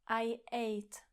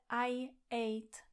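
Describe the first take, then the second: First: A tiny break separates the two words. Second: The same.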